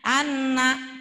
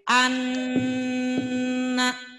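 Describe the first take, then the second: First: The nasal nn sound is held only briefly. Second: The nasal nn sound is held noticeably longer. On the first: The speaker calls it wrong. "Jangan gini ngucapinnya" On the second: The speaker calls it right. "Ini dua ketukan dengungnya"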